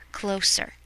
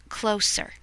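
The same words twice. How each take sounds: The two takes are said the same way.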